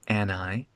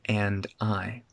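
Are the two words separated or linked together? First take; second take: linked; separated. First: The two words are linked into one. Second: The two words are said separately. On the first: The speaker calls it right. "We're linking and I" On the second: The speaker calls it wrong. "we're not saying and I"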